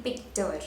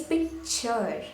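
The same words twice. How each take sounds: First: Picture said as pic-tur, with a hard t and no ch; hard t pronunciation. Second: Picture said slowly as pic-chur, with a ch; ch pronunciation. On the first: Teacher showing what not to say, hard t pronunciation. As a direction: say picture as pick-ter. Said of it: "I'm not saying". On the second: Teacher correcting the word ending, ch pronunciation. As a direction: draw picture out as pick-chur. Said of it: "It's picture". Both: Shown as a demonstration.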